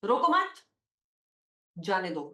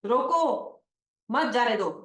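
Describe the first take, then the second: First: रोको मत together, rising, then जाने दो low after a long pause. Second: रोको set apart, then मत जाने दो together; pause after रोको. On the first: Teacher moving the comma to change the meaning, pause after मत. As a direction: lift रोको मत, break, drop on जाने दो. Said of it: "if I remove this comma from here and put it here". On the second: Teacher showing students a comma's importance, pause after रोको. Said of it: "Importance of a comma". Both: Shown as a demonstration.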